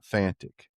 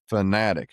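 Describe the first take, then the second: First: The word is said with two syllables. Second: The word is said with three syllables. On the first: The speaker calls it wrong. "I guess I was saying it wrong" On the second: The speaker calls it right. "It's Sitka Fanatic"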